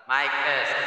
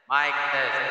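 The two takes are said the same way.

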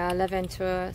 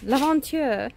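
First: The name is said with an English-style pronunciation. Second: The name is said with a French-style pronunciation. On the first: The speaker calls it wrong. "I kind of said it wrong" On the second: The speaker calls it right. "my husband just corrected me because he speaks French"

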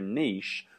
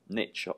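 First: Niche is said in a British way. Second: Niche is said in an American way.

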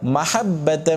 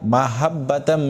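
First: The h is a throaty, pharyngeal h. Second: The h is a plain, light h. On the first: The speaker calls it right. "হা উচ্চারণ করতে হবে" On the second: The speaker calls it wrong. "এখানে অনেকেই ভুল করে থাকে"

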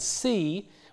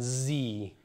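First: The word begins with a voiceless s sound. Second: The word begins with a voiced z sound.

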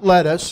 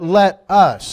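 First: It is blended into one word, like lettuce. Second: It is said as two separate words. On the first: It refers to the salad vegetable. The speaker calls it wrong. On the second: It is a command to act together. The speaker calls it right.

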